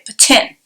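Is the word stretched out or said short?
short. It is said short, French Canadian style.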